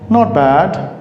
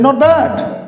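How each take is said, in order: First: It is said in a flat, neutral tone. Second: It is said in a lively, excited tone. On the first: Things are just okay. "not bad in a neutral way" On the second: Things are really good. "a not bad in a very positive, exciting way"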